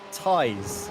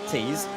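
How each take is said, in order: First: The vowel sounds like 'eye'. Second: The vowel sounds like 'ee'. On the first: The speaker calls it right. "it's pronounced ties" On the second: The speaker calls it wrong. "not tees. So we've been saying it wrong"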